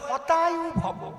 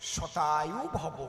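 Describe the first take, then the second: First: The first word begins with an H sound. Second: The first word begins with an S sound. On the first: The life is wished to be destroyed. The speaker calls it wrong. "ওনার তো স উচ্চারণ হয় না, উনি কয়" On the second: A life of a hundred years is wished. The speaker calls it right. "এর সংস্কৃত কি?"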